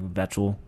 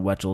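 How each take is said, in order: First: The name begins with a V sound. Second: The name begins with a W sound. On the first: The speaker calls it right. "it's like Vetchel" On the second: The speaker calls it wrong. "I said his name wrong earlier. When it's not Wetchel"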